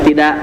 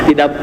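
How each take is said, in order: No difference in how they are said.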